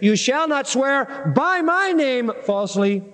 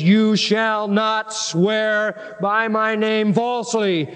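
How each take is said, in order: First: The stress falls on the word name. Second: The stress falls on the word falsely. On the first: Only false oaths by that name are forbidden. The speaker calls it wrong. "But their emphasis is" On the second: Any false oath is forbidden. The speaker calls it right. "the emphasis is you shouldn't swear falsely"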